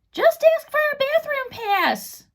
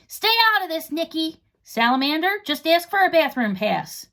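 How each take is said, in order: First: Put-on much higher, slow helpful girl voice; a know-it-all offering the easy answer; girl's voice, Nikki. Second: Bossy Rip. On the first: Nikki whispering advice to the boys, high girl voice. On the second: Rip telling Nikki to butt out, higher and bossy. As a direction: shut her down, then repeat her idea. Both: A narrator's reading.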